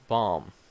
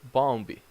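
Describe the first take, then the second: First: The word ends on the M sound. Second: A B sound is pronounced at the end. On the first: The speaker calls it right. "you do not pronounce it" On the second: The speaker calls it wrong. "in an incorrect way, like bombi. That's not good"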